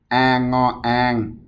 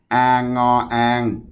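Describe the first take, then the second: Both takes have the same delivery.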